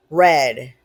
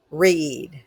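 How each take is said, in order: First: "read" said as "red", past tense. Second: "read" said as "reed", present tense. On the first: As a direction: say "read" rhyming with "bed". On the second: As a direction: say "read" rhyming with "seed". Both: Shown as a demonstration. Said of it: "read, read (two readings listed)".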